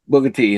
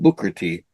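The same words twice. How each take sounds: First: The K sound in Booker is dropped. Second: The K sound in Booker is clearly pronounced. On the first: The speaker calls it wrong. "They always say Booker Booker T" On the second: The speaker calls it right. "instead of saying Booker T"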